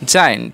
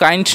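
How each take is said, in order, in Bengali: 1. শব্দটি একটি j ধ্বনি দিয়ে শুরু হয়। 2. শব্দটি একটি শক্ত g ধ্বনি দিয়ে শুরু হয়। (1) "হবে জায়েন্ট" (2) "উচ্চারণটা কিন্তু গাইন্ট নয়"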